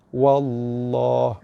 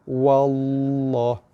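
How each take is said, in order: First: The l sound is heavy and thick. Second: The same.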